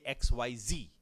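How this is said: The final letter is said in the American way. "in America, they say"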